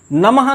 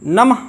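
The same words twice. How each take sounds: First: नमः with a full ha syllable; wrong visarga. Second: नमः ending in a short breath; correct visarga. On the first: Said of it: "तब तो यहाँ हा लिखा होता". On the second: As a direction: say नमः with a light visarga, no ha syllable. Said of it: "विसर्ग की ही ध्वनि का उच्चारण". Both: Shown as a demonstration.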